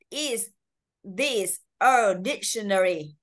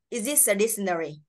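First: Each word is said separately without linking. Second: The words run together with linked sounds. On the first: "Đáng nhẽ nếu không nối âm này" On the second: "thì nó là sẽ nối âm như vậy nhá"

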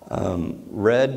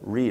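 First: The vowel is short, rhyming with bed. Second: The vowel is long, rhyming with seed. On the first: The action already happened. "Read means past tense" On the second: The action is ongoing. "I like to do that ongoing"

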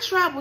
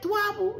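First: The word starts with a normal tr sound. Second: The word starts with a tw sound instead. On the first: "Not trouble" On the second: "with a TW, twabble. Like Elmer Fudd"

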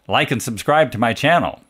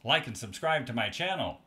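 First: The voice sounds direct, full and loud. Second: The voice sounds quietest with the most changed tone. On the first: "This is directly into the microphone" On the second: "This is exactly 180 degrees off axis"

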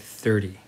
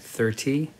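First: It is said casually, with relaxed sounds. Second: It is said carefully, each sound distinct. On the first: "but normally we'd say 30" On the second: "In careful pronunciation"

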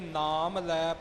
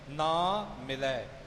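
First: The m closes the first word: naam lai. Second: The m opens the second word: naa milai. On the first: It means taking the Name. The speaker calls it wrong. "ਇਹ ਖਿਆਲ ਰੱਖਣਾ ਕਿ ਨਾਮ ਲੈ ਪਾਠ ਨਾ ਹੋ ਜਾਵੇ" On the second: It means does not meet. The speaker calls it right. "ਇਉਂ ਪਾਠ ਨਿਖੇੜ ਕੇ ਕੀਤਾ ਜਾਵੇਗਾ"

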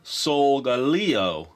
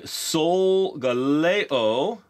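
First: The ending sounds like the word Leo. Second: The ending does not sound like the word Leo.

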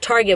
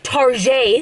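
First: The word is pronounced in a plain, ordinary way. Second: The word is pronounced in a fancy, affected way. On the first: "which is Target" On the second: "but fancier because you say it like that"

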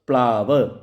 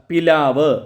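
First: The first two consonants run together with no vowel. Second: A vowel is heard between the first two consonants. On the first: "സ്വരം എടുത്തു കളഞ്ഞ് വ്യഞ്ജനം കൂട്ടിയിണക്കുകയാണ്" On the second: "പദമധ്യത്തിലെ ശബ്ദം ലോപിക്കുന്നതാണ് മധ്യസ്വരലോപം"

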